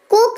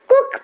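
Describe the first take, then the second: First: "कोक" like coke, long pure o; wrong long o. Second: "कुक" with a short oo as in put; correct short u. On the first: Teacher showing how not to read cook, "कोक" with long o. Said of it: "तो नहीं पढ़ते हैं". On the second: Teacher giving the proper reading, "कुक" with short u. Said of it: "कुक पढ़ते हैं". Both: Shown as a demonstration.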